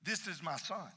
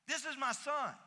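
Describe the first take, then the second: First: Said in the usual way. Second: This is my son said higher and fuller; higher restatement. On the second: Shown as a demonstration. Pastor repeating God's plain words, higher. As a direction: lift it up the second time. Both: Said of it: "God could have simply said".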